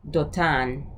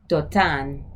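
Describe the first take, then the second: The two takes are said the same way.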